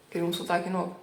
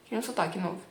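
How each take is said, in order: Both takes have the same delivery.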